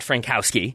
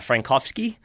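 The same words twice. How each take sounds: First: The name is said with English sounds. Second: The name is said with Polish sounds. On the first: The speaker calls it wrong. "so he is not Frankowski" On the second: The speaker calls it right. "who is Polish"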